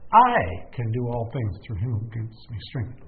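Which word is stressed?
I. The word "I" carries the emphasis.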